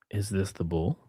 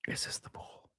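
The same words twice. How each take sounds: First: Said in the usual way. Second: Unvoiced whisper, much softer. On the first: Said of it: "plain then whispered repeat". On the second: Shown as a demonstration. Asking viewers in a secretive whisper to build suspense. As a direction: breathe the question in a whisper. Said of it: "whispered repeat".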